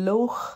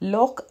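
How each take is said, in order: First: It is said the Scottish way. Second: It is said the English way. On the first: "ഈ Scottish ആയിട്ടുള്ള ആൾക്കാർ ലേക്കിന് ലോഹ് എന്നാണ് പറയുന്നത്" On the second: "അത് ഇംഗ്ലീഷുകാർ ലോക്ക് എന്ന് പറയും"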